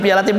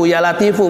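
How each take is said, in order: First: The name ends on a bare consonant sound. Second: The name ends with an added vowel sound. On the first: The speaker calls it wrong. "bukan ya latif" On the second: The speaker calls it right. "ujungnya harus dibaca ya latifu"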